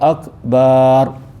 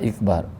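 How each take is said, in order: First: The vowel after the b is lengthened. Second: The word begins with an i vowel. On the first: The word comes to mean drum. "Tambah huruf alif selepas huruf ba" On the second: The word comes to mean menstruation. "dia tambah huruf alif tu dia jadi kasrah"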